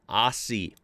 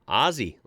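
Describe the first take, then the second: First: The middle consonant is an s sound. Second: The middle consonant is a z sound. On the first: The speaker calls it wrong. "has never, ever been pronounced as Aussie" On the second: The speaker calls it right. "pronounced Aussie, like [name]"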